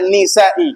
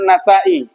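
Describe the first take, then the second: First: The first syllable has the vowel i. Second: The first syllable has the vowel a. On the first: The speaker calls it wrong. "Jangan dibaca Nisai" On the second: The speaker calls it right. "An-Nasai bukan Nisai"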